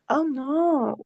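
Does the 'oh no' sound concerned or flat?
concerned. It is said with concerned, emotional intonation. The speaker calls it right. "Add feeling to your conversations"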